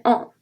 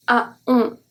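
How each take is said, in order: First: On as a single nasal vowel; the right way to say on; modelling the correct on; correct pronunciation. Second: A on with a separate A sound; the wrong way to say a on; demonstrating the mistake in a on; wrong pronunciation. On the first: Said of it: "we say on". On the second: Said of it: "We don't say". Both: Shown as a demonstration.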